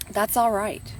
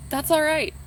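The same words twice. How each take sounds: First: Said in the usual way. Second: Higher, gently reassuring. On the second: Shown as a demonstration. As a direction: comfort them, lifting the pitch.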